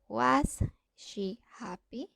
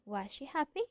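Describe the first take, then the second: First: The s is kept separate before the sh. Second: The s blends into the following sh. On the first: "instead of saying" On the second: "we say"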